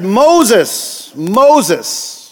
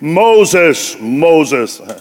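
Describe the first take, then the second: First: It is said in the reader's normal voice. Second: It is said in a deep booming God voice.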